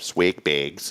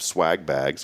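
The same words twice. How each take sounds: First: It is said in a northern US accent. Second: It is said in the speaker's usual local accent.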